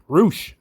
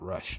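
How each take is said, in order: First: The vowel is a long oo sound. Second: The vowel is a short uh sound. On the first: The speaker calls it right. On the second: The speaker calls it wrong.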